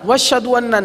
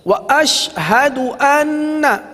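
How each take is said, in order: First: The glottal stop is dropped, words run together. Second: The glottal stop before 'ashhadu' is clearly kept. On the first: The speaker calls it wrong. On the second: The speaker calls it right.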